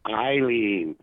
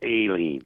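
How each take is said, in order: First: The first syllable lacks the emphasized A sound. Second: The first syllable has the emphasized A sound. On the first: The speaker calls it wrong. "everybody keeps saying Eileen" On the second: The speaker calls it right. "The emphasis needs to be on the A"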